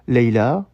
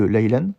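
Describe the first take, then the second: First: The word ends on a vowel with no n. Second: The word ends with a final n sound. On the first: The speaker calls it right. "à la fin de la phrase, on dira plutôt Leila" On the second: The speaker calls it wrong. "au lieu de Leilan"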